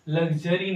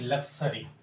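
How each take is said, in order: First: The middle consonants sound like 'gz'. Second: The middle consonants sound like 'ks'. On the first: The speaker calls it wrong. "लग्जरी नहीं" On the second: The speaker calls it right.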